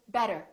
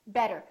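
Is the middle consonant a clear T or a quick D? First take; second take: quick D; quick D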